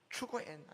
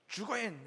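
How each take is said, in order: First: The word begins with a "ch" sound. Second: The word begins with a "j" sound. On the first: The speaker calls it wrong. "추거엔 하면은 그 자리에서 죽인 것이죠" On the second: The speaker calls it right. "주거엔 해봐"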